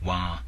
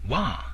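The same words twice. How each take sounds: First: It is long with a sustained vowel. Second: It is high and raised, like shouting. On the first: It means the color yellow. "Wa in a longer, sustained tone, sometimes called the second tone" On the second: It means bamboo or chewing. "wa in a high, raised tone, sometimes called the third tone"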